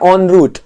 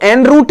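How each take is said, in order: First: The first word is said like 'on'. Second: The first word is said like 'en'. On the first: The speaker calls it right. "इसको पढ़ते हैं ऑन रूट" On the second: The speaker calls it wrong. "इसको एन रूट नहीं पढ़ते"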